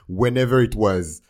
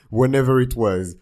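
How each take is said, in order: First: Slow loud dismissive English; sassy drawn-out aside. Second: Loud dismissive English repeat. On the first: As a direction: drag it out sassily. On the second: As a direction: toss it off with attitude. Repeated louder. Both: Pretend.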